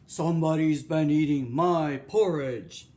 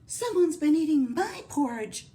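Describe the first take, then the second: First: It is said in a deep, gruff voice. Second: It is said in a medium, mellow voice.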